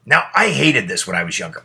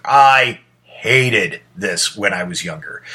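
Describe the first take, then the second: First: Said in the usual way. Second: "I hated this when I was younger" said slowly, each word leaned on; repeating to let it land; slow emphatic repeat. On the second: Shown as a demonstration. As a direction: drag out "hated" for weight.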